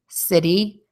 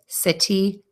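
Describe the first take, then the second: First: The middle consonant sounds like a quick D. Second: The middle consonant is a clear T. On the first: "we're going to hear the D sound" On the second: "if you say these words with a T"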